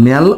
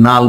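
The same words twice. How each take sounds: First: ন্যাল with an open 'nyal/nel' vowel; ন্যাল, front-vowel variant; pronounced ন্যাল. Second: নাল with a long open 'aa'; নাল, back-vowel variant; pronounced নাল. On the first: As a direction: say ন্যাল with the front 'a' of cat. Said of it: "উচ্চারণ হবে কি". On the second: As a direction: say নাল as 'naal'. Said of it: "অথবা কি নাল বলে". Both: Shown as a demonstration.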